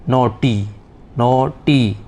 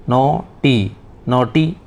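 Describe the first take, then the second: The two takes are said the same way.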